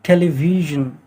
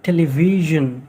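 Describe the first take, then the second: The two takes are said the same way.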